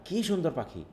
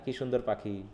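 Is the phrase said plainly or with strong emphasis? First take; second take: emphasis; plainly. First: It is said with strong added force. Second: It is said plainly without added force. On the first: "আমি এখানে চাপটা দিচ্ছি" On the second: "এটা যদি আমি simply বলি"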